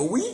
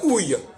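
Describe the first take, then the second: First: The word ends on a plain i vowel. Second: The word ends with a y consonant sound.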